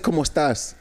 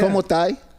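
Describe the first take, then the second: First: The final S is clearly pronounced. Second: The final S is dropped, Chilean style.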